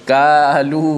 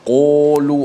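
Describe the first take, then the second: First: The first consonant is light, like a plain k. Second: The first sound is exaggerated with rounded lips. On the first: "tidak boleh baca kalu, ha, ka tak boleh ya" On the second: "jangan melampau sangat pula... sampai bulat mulut"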